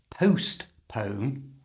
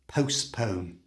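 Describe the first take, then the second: First: The t in the middle is clearly pronounced. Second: The t in the middle is left silent. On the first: The speaker calls it wrong. "do not say the letter T in the middle of the word. It's not postpone" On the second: The speaker calls it right. "it's postpone"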